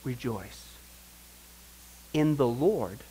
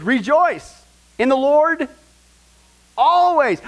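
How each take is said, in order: First: Much softer, lower rejoice; hushed rejoice. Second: Loud, slow, high proclamation; proclaiming rejoice. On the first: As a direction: say it gently, almost to yourself. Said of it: "And he says". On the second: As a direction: ring it out like a herald. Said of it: "I'll say it again". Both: Shown as a demonstration.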